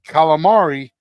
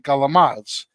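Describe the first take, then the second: First: It is said with the standard pronunciation. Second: It is said with a New Jersey Italian-American pronunciation.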